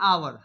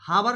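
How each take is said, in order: First: The word starts with a vowel, no h. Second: The word starts with an audible h sound. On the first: The speaker calls it right. "इसको पढ़ा जाता है आवर" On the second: The speaker calls it wrong. "हावर नहीं पढ़ा जाता"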